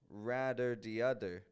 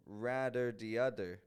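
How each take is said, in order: First: The th sounds are hard and choppy, like d. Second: The th sounds are hard and choppy, like d.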